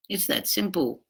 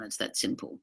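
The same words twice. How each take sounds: First: Said in the usual way. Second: Near whisper. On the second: Real, not acted.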